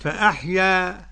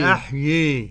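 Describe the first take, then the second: First: The final vowel stays open and unbent. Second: The final vowel leans strongly toward 'ee'. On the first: "كيف يكون الفتح؟" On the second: "والإمالة بقى أن تنحو بالألف نحو الياء كثيرا"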